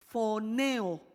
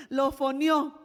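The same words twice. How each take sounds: First: "foneo" said slowly with the final O unstressed; stress before final O. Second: "lo foneó" loud, punching the final O; "foneó" stressed as fo-ne-Ó. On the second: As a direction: hit the Ó of "foneó" hard. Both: Shown as a demonstration. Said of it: "aquí sí aparece el acento en la O".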